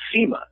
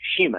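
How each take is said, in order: First: The name begins with a plain s sound. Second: The name begins with an sh sound. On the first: The speaker calls it wrong. "I thought it was pronounced Sima" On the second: The speaker calls it right. "he pronounces it Shima"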